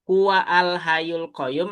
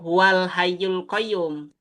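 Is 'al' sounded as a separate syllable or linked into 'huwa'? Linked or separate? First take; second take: separate; linked. First: The 'al' is pronounced as its own syllable. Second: The 'al' is merged smoothly into the preceding word. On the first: The speaker calls it wrong. "Yang huwa al hayyul qayyum" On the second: The speaker calls it right. "karena ini hamzah wasol ya"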